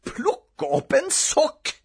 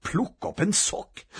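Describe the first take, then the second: First: High, slow, drawn-out incredulity; outraged disbelief. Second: Higher, hushed disbelief; disbelieving. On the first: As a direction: stretch each word in outrage. Boy repeats it, now outraged. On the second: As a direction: echo the order as if stunned. Boy repeats order in disbelief. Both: A narrator's reading.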